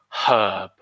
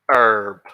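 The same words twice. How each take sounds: First: The word begins with a breathy H sound. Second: The word begins directly with the vowel sound. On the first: "we aspirate the H in English. We say herb" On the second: "In the U S, they say herb, which is completely wrong in my opinion"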